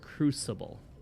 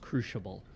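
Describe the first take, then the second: First: The middle consonant is an S sound. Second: The middle consonant is an SH sound. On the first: "I've only ever heard Crucible" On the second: "like an S H sound"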